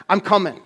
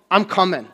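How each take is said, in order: Both takes have the same delivery.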